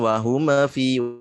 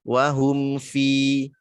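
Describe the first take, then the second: First: The m bounces with an added vowel. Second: The m flows smoothly without an added vowel. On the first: The speaker calls it wrong. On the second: The speaker calls it right. "Alirkan dulu suara mimnya"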